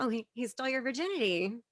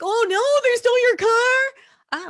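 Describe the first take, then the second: First: Quick, offhand, barely concerned; mock indifference. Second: Loud, high, drawn-out cry of outrage; hammed-up panicked yell; mock alarm. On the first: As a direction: toss it off as no big deal. Mocking police indifference, contrasted with alarm. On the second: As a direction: wail it in exaggerated horror. Mocking police alarm over stolen property.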